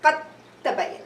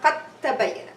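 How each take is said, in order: First: The d disappears into a doubled t sound. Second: The same.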